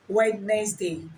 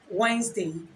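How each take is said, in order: First: The word is said with every letter sounded. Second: The word is shortened, with letters left silent. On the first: The speaker calls it wrong. "and not" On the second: The speaker calls it right. "The standard pronunciation"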